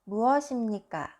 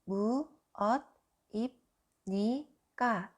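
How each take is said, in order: First: The final consonant moves into the next syllable. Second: Each syllable is said separately, without linking. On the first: The speaker calls it right. "We say this" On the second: The speaker calls it wrong. "If I pronounce each letter, it sounds"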